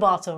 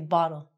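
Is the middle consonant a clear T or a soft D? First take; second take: clear T; soft D. First: The middle consonant is a clear T sound. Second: The middle consonant sounds like a soft D. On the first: The speaker calls it wrong. "It's not a bottle" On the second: The speaker calls it right. "it's going to be said like a D. So, we say bottle"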